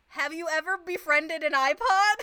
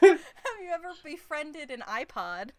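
First: It is said fast, almost breathless. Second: It is said slowly and calmly.

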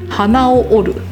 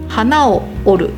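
First: The pitch stays high on the particle を. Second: The pitch drops on the particle を. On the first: It means breaking a nose. "ビーズはおは高いままです。" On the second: It means breaking a flower. "花はおが下がります。"

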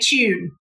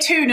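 First: The word begins with a ch sound. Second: The word begins with a plain t sound. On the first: The speaker calls it right. "It's C-H-U-N-E. Like a British person" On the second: The speaker calls it wrong. "You said tune with T-O-O-N"

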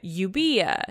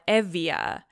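First: The middle consonant is a b sound. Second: The middle consonant is a v sound. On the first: This is the older, ancient-style form of the name. "I don't know the accurate ancient pronunciation of, but Euboea" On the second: This is the modern Greek form of the name. "they call it Evia"

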